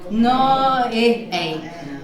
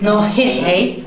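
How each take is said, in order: First: The vowels run together with no h sound. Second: A soft h sound comes before the vowel. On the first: The speaker calls it wrong. "it's a little bit difficult there with two vowels coming together" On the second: The speaker calls it right. "we're going to put a soft H in front of I and O"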